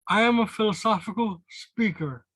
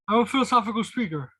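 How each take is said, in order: First: It is said at a slower, measured pace. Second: It is said a little quicker than normal.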